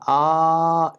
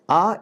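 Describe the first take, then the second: First: The vowel is held for three beats. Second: The vowel is held briefly, one beat. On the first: "A is Pluta" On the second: "A is Hraswa"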